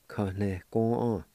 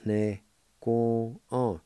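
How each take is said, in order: First: Said in the usual way. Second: "ne ko on" said slowly with every syllable spaced out; slow careful Cherokee. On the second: Shown as a demonstration. Teacher slowly modelling "ne ko on" for learners. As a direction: draw out "ne ko on" for beginners. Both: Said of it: "it's pronounced like this".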